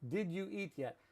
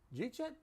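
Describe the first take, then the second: First: Each word is said fully and separately. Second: The words blend together into one short word.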